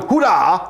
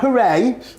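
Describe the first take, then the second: First: The word ends with an 'ah' vowel. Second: The word ends with an 'ay' vowel. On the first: The speaker calls it right. "hurrah, not hooray" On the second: The speaker calls it wrong. "not hooray"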